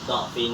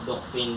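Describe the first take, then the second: First: The first vowel is an a sound. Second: The first vowel is a u sound. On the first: "boleh dibaca fathah" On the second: "dan boleh dibaca dhammah"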